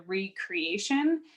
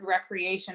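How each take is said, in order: First: It is split, with 're' said apart. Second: It is said as one ordinary, smooth word. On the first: Creating oneself anew. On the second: Leisure activity.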